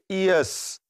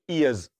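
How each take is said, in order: First: The word ends with a hissing s sound. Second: The word ends with a buzzing z sound. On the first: It becomes a different word. The speaker calls it wrong. "to wata kalma ka faɗa daban ba wannan kalmar ba" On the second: It is the plural of ear. The speaker calls it right. "sai dai ka ce"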